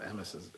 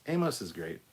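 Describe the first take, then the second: First: "Amos" with a short first A, as in "ham"; mispronounced name. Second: Said in the usual way. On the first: Real, not acted. Stumbles on name, then corrects it.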